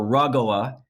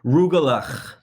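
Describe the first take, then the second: First: The middle consonant is soft, with no throaty rasp. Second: The middle consonant is a harsh throaty rasp. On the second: "it has to sound like you have a severe sinus infection or something to say it right"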